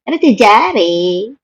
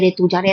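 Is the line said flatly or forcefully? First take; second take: forcefully; flatly. First: The line is said forcefully, with dismissive scorn. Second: The line is said flatly, without force. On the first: The speaker calls it right. "देखो मैं बताती हूँ ऐसे पढ़ते" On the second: The speaker calls it wrong. "ऐसा जैसे तुम पढ़ रहे थे"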